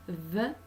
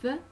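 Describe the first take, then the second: First: "the" as a buzzed th sound with a short vowel; voiced th in "the", tongue tip out. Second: "th" as a voiceless breath between the teeth; "th" with no buzz in the throat; unvoiced th. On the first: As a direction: let the throat vibrate on the th of "the". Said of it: "the is voiced". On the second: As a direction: blow air over the tongue tip for "th". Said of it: "th is unvoiced". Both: Shown as a demonstration.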